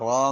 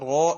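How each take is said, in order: First: The vowel sounds like a. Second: The vowel sounds like o. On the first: The speaker calls it right. "റാ എന്നാ പറയാ" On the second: The speaker calls it wrong. "റോ എന്നല്ല പറയാ"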